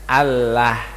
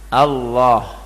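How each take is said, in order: First: The L sound is thin and light. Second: The L sound is thick and heavy. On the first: The speaker calls it wrong. "Kalau tidak ditebalkan jadinya Allah" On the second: The speaker calls it right.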